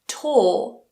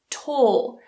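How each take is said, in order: First: The vowel sounds like the one in 'court'. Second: The same.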